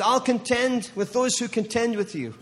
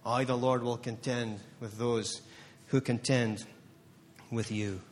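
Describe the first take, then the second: First: Proclaiming. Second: Low, soft and slow; soft, low, slow reverent promise; hushed. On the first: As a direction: ring it out as God's promise. Declaring God's promise at peak. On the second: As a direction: drop it to a hush, each word weighed. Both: Acted.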